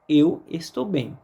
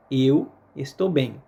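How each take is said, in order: Both takes have the same delivery.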